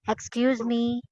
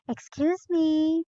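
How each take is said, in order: First: It sounds rude, without a smile. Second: It sounds polite and smiling.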